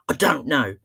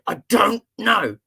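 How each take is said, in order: First: Imitated cross little boy, mildly insistent; cross child. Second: Slow, loud, higher mock-angry outburst; very cross child. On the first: Seven-year-old answering the therapist, getting cross. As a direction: dig in like a fed-up child. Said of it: "He got so cross". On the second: Boy with clenched fists to therapist, imitated fury. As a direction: hammer out each word like a furious small boy. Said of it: "He clenched his fists and went".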